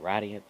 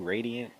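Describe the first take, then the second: First: The name is pronounced the Japanese way. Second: The name is pronounced the English way. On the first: "They say Radiant, I'm saying Radiant too" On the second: "I guess you can say Radiant"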